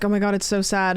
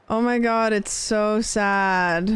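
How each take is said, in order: First: Light mock-sad quote, barely voiced; quoting everybody. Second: Drawn-out, very slow mock-sad echo. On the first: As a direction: toss off what everyone says, almost plain. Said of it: "And everybody's like". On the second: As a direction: stretch "so sad" way out, hamming it up. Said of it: "And I'm like".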